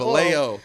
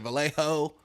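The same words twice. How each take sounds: First: The name ends with a 'yo' sound. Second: The name ends with a 'ho' sound. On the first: The speaker is from the town. The speaker calls it right. "like a yo at the end" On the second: The speaker is not from the town. The speaker calls it wrong. "people that aren't from there will say Vallejo"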